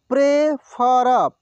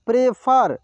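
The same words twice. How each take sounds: First: prefer drawn out slowly, syllable by syllable; slow sounding out. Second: Said in the usual way. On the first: Shown as a demonstration. Teacher slowly sounds out prefer for students. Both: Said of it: "एक एक मात्रा को अलग अलग करके".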